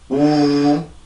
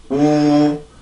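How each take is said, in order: First: It is said with a relaxed, loose mouth. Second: It is said with a relaxed, loose mouth.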